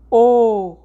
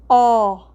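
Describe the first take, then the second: First: The vowel is said closed, with the mouth narrower. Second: The vowel is said open, with the mouth wide. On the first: "ou então o som fechado" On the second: "nós temos um som aberto, por exemplo"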